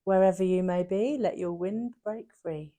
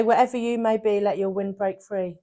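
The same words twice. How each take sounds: First: Very low, very soft recital; solemn repeated saying. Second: Low, hushed recital of a proverb; grandma's saying. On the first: Shown as a demonstration. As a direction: drop right down, slowing at the end. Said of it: "can you just say that again?". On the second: Retold or imitated. Friend quoting grandma's motto, low and quiet. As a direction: lower and soften it like old wisdom. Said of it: "My grandma used to say".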